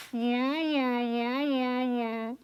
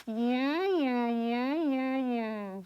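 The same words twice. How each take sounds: First: Forward placement. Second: Puffed cheeks. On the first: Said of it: "throw our voice in the front". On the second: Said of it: "So you're gonna go". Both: Shown as a demonstration.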